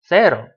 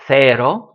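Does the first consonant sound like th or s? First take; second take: s; th. First: The first sound is a hissing s. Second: The first sound is a soft th. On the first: This is how it is said across the Atlantic. "To people from the the western side of the Atlantic" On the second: This is how it is said in Spain. "To them, it's the theta sound"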